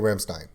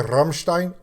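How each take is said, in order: First: The name is said with an American English pronunciation. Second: The name is said with a German pronunciation. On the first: The speaker calls it wrong. "I'm going to use the English pronunciation from my stupid American mouth" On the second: The speaker calls it right. "I know I should say Rammstein"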